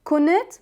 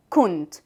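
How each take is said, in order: First: Higher كنت as kun-it; two-syllable dhamma variant. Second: كنت said as kunt; one-syllable dhamma variant. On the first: Teacher showing dhamma variants to learners, two-syllable كنت. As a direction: say كنت with u, then a short i before t. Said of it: "Even with the dhamma". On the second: Teacher showing dhamma variants to learners, one-syllable كنت. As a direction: say كنت with u and nothing between n and t. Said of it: "they do the same". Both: Shown as a demonstration.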